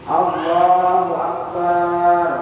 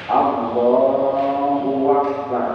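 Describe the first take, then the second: First: The final syllable bar is drawn out long. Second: An extra w sound is added between words. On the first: "barnya panjang" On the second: "menambahi huruf waw"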